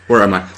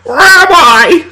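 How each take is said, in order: First: It is said in an ordinary, plain voice. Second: It is said in a confused, put-on character voice.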